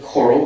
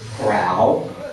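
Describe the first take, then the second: First: It sounds like the word coral. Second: It sounds like the word corral. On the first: This is the intended pronunciation. "you can pronounce it like this, like a coral reef" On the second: This is a local Texas way to say it. "we're in Texas after all, so Corral"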